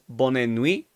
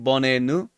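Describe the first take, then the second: First: The i sound in the second word is strong. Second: The i sound in the second word is dropped. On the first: "the I is strong" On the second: "Because the T is silent"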